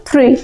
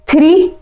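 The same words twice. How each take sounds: First: थ्री as one syllable, th sliding into r; blended THREE. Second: Said in the usual way. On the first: Shown as a demonstration. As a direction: say थ्री without a vowel after th. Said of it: "क्या पढ़ना?". (थ्री को "थिरी" नहीं, एक झटके में बोलें) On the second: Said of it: "थ्री नहीं पढ़ना है".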